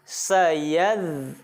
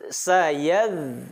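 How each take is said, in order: Both takes have the same delivery.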